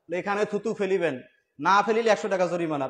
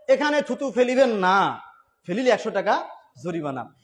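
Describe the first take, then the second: First: The pause comes before the word 'না'. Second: The pause comes after the word 'না'.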